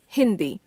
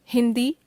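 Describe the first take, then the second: First: Hindi with a fall at the end; falling tune. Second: Hindi with a rise at the end; Hindi left hanging on a rise; rising tune. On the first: Word list, second of two takes. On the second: Word list, first of two takes. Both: Shown as a demonstration.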